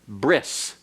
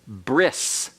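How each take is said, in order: First: The word ends with an s sound. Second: The word ends with an s sound.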